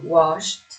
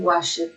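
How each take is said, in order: First: The ending is said as a bare consonant. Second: The ending is said as an extra syllable. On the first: The speaker calls it right. "imaginando que esta E no suena" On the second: The speaker calls it wrong. "uno no lee esto, ni wash it"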